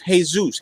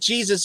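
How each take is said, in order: First: The name begins with an H sound. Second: The name begins with a J sound. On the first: "in Spanish is Jesus" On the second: "like Jesus"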